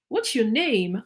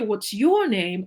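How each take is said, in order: First: The stress falls on the word name. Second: The stress falls on the word your.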